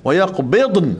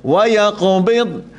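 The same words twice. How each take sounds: First: Yaqbidun with the dad bouncing into an added nun; wrong bouncing dad. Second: Slow yaqbid, dad held still with no bounce; correct still dad. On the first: Ustaz demos a wrong reading of yaqbid. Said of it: "Ada orang baca wa yaqbidun". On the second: Ustaz shows the class the correct yaqbid. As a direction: hold the dad still and don't let it bounce. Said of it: "Nun pemati, dad pemati". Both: Shown as a demonstration.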